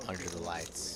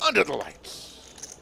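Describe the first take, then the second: First: Hushed, much softer and lower; subdued. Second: Slow, drawn-out announcer call. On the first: Shown as a demonstration. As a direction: say it quietly, held back. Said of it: "It's kind of a subdued". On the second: Acted. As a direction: boom it out like a ring announcer. Dramatic tagline before hushed echo.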